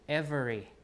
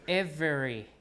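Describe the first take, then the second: The two takes are said the same way.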